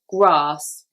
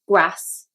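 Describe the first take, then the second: First: The vowel is a long ah sound. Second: The vowel is a short flat a sound. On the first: "in the south, we would say grass" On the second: "with the Liverpool accent, they would say grass"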